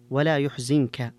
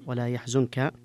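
First: يحزنك said "yuhzinka", u first and i after the z; Nafi's reading. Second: Said in the usual way. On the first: Shown as a demonstration. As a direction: recite يحزنك slowly as "yuh-zin-ka". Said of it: "قد انفرد في جميع المواضع". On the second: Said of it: "مثل الجماعة".

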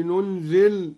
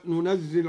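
First: ننزل with a light, single zay, as nunzil; ننزل lightened to nun-zil, no shadda. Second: Said in the usual way. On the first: Shown as a demonstration. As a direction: say ننزل without doubling the zay, al-Duri's reading. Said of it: "قرأ الدوري بالتخفيف".

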